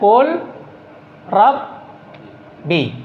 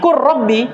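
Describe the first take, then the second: First: The L sound is pronounced clearly before the R. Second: The L merges into a doubled R sound. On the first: This is the underlying form before assimilation. "Ini kan asalnya Qul Rabbi" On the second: This is how the phrase is actually recited. "Lam diidgham, dimasukkan kepada apa yang datang setelahnya"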